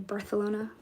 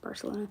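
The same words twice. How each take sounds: First: It is said with a Spanish accent. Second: It is said with an American accent.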